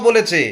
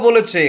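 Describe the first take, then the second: Both takes have the same delivery.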